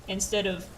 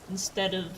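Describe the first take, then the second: Both takes have the same delivery.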